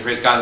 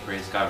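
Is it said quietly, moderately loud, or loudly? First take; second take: loudly; quietly. First: It is said loudest of all. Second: It is said slowly and quietly.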